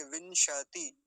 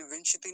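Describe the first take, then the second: First: विंशति slowly as "vin-sha-ti"; विंशति drawn out in three syllables; full श. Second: विंशति as a quick "vinsh-ti"; विंशति squeezed to two syllables; wrong half श. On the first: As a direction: stretch विंशति, giving श its own vowel. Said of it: "ऐसा करके". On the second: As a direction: drop the vowel after श in विंशति. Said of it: "नहीं बोलेंगे". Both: Shown as a demonstration.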